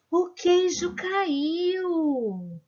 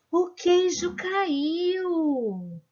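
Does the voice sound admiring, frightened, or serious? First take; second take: admiring; admiring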